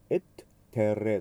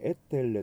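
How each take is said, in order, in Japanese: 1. 2つの t 音は、どちらも別々に発音します。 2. 2つの t 音は、つなげて1つになります。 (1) "両方発音します" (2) "つなげてしまう場合もあります"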